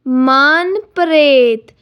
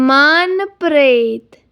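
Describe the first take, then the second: Both takes have the same delivery.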